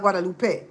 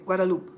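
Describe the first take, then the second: First: "Guadalupe" ending with a -pe sound; wrong Guadalupe. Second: "Guadalupe" ending -lup, no final e; French Guadalupe. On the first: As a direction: say "Guadalupe" the Spanish way. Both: Shown as a demonstration. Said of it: "Not Guadalupe".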